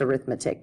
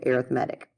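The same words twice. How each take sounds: First: The stress is on the second syllable. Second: The stress is on the third syllable. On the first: The everyday word for the branch of mathematics. "it can be pronounced arithmetic" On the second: The term used when describing sequences and series. "we actually pronounce it arithmetic"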